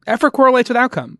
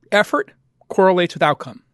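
First: "correlates" lifted much higher and stressed; emphatic repeat. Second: Said in the usual way. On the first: Shown as a demonstration. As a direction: hammer the point home on "correlates". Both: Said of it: "repeats line with emphasis".

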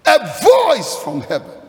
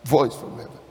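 First: High, loud preacher's declaration; ringing proclamation. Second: Dropped pitch, understated; low musing repeat. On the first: Preacher announcing the voice from heaven, ringing proclamation. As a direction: proclaim it out to the congregation. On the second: Preacher repeating a phrase he likes, low and understated. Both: Real, not acted.

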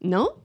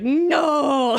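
First: Said in the usual way. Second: Imitated toddler's drawn-out "no"; mock defiant shout, stretched out; toddler refusal. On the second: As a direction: blurt a long toddler-style refusal. Acted toddler refusing, then throwing.

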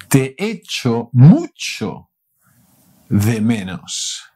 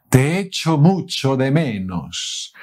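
First: Slow and loud, stressing mucho; drawn out for learners; careful slow model phrase; slow teaching demo. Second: Said in the usual way. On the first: Shown as a demonstration.

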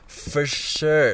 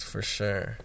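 First: "For sure" said louder and higher with a falling finish; emphatic repeat. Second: Said in the usual way. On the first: Real, not acted. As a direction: punch the "sure" as an emphatic confirmation.

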